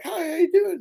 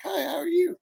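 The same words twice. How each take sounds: First: High, sing-song fake politeness; fake friendly greeting. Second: High, bright phony hello; mock an overly sweet greeting; fake friendly greeting. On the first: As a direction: put on a phony sweet hello. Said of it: "when someone comes up to you and they're fake". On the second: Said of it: "I don't even talk like that".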